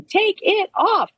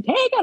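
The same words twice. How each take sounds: First: Slow, high-pitched chant; imitated crowd chant. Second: Mock scream. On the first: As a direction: draw out each word like a studio audience chanting. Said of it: "everybody in the studio audience is chanting". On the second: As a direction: imitate an excited fan screaming at the TV without real volume. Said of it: "She's in the family room screaming".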